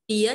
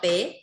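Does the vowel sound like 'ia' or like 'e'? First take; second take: ia; e. First: The vowel sounds like 'ia'. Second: The vowel sounds like 'e'. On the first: The speaker calls it right. "Bía nhé" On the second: The speaker calls it wrong. "đừng đọc bế"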